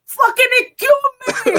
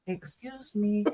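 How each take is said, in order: First: High, loud imitated yell; Boricua outburst. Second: Soft, distant-sounding excuse me; man heard from afar. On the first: Wheelchair user trying to get through Times Square, imitated yell. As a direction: mimic his exploding Boricua yell, pitched way up. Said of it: "I heard the Boricua come out". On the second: Retold or imitated. Imitating wheelchair user trying to get through, softly. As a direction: imitate a faint polite call, much softer. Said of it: "I heard it from afar".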